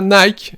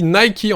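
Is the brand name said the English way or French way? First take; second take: French; English. First: It is said the French way, as one syllable. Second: It is said the English way, with two syllables. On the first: It is how everyone in France says it. The speaker calls it wrong. "on dit pas Nike" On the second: It follows the name of the goddess. The speaker calls it right. "On dit Nike"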